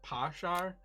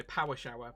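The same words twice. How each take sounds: First: "parshar" in an Irish accent, each word squeezed to one syllable; clipped Irish "parshar". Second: Said in the usual way. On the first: Shown as a demonstration. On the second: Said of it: "So you say".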